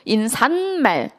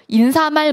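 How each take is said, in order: First: It is said with an added n sound. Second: It is said with no added n sound. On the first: The speaker calls it wrong. "하면 안 된다고 강조했죠" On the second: The speaker calls it right. "이게 맞는 발음이고"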